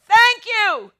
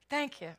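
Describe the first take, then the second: First: It is said loudly and fervently. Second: It is said quietly and casually.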